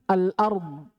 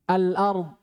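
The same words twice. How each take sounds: Both takes have the same delivery.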